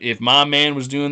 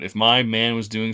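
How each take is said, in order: First: It is said in a put-on imitated accent. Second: It is said in the speaker's natural accent.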